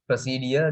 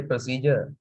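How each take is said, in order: First: "procedure" as pro-see-dia; Sri Lankan pronunciation. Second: "procedure" as pro-see-jer; foreign pronunciation. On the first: Teacher showing class the local way, Sri Lankan pronunciation. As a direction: end "procedure" in "dia", no j sound. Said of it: "We say". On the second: Teacher showing how foreigners say it, foreign pronunciation. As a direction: end "procedure" with a j sound. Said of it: "they say procedure". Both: Shown as a demonstration.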